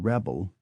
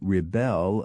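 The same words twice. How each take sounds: First: The stress is on the first syllable. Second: The stress is on the second syllable. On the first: It is used as a noun. "the stress moved to the first syllable when they were used as nouns" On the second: It is used as a verb. "all such words were stressed on the second syllable"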